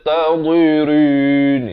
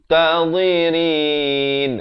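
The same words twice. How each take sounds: First: The r sound is heavy and thick. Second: The r sound is light and thin. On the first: The speaker calls it wrong. "Itu tebal, salah ya" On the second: The speaker calls it right. "Rin itu jadi nipis"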